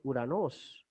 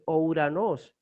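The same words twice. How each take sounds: First: Uranos opening on a pure U; Greek pronunciation. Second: Ouranos with both O and U sounded; Castilian misreading. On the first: Teacher correcting to the Greek sound, Uranos with single U. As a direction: say Uranos with no O before the U. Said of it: "en griego la fonética es". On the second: Teacher showing how Castilian readers would misread it, Ouranos with O before U. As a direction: say Ouranos as spelled, opening O-U. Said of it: "en castellano se va a leer entonces". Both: Shown as a demonstration.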